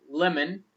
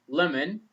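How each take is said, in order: The two takes are said the same way.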